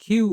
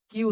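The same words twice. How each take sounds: First: "কিউ" with an aspirated kh; correct letter Q. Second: "কিউ" with a plain k, no puff of air; wrong letter Q. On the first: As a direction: puff air on the first sound of "কিউ". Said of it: "ক এর জায়গায় খ". ("কিউ" ক-এর জায়গায় খ দিয়ে) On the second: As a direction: say "কিউ" with an unaspirated Bengali k. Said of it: "এটা কিউ নয়". ("কিউ" ক দিয়ে, বাতাস ছাড়া) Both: Shown as a demonstration.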